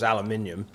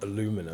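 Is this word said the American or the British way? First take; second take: British; American. First: It has the extra syllable, British style. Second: It lacks the extra syllable, American style. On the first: The speaker calls it right. "The Queen's English" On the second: The speaker calls it wrong. "not aluminum"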